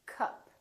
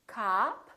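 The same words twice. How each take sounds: First: "cup" with a short uh; brief, relaxed vowel in "cup"; neutral uh vowel. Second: "Cop" as "kahp", rising; long open "ah" in "Cop"; tense ah vowel. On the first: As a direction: model "cup", quick and lax. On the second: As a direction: stretch "Cop" for learners. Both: Shown as a demonstration. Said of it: "with ah and uh".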